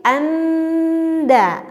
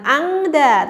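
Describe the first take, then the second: First: Anda very slow, nasal near the d; correct ikhfa. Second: Angda slowly with a back ng; wrong nasal in angda; wrong ikhfa. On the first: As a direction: stretch out anda, tongue forward. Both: Shown as a demonstration.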